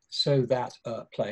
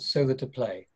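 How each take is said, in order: First: The phrase is broken by a pause before play. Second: The phrase is joined together without any pause. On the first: The speaker calls it wrong. "I don't say" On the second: The speaker calls it right. "all those words are joined together"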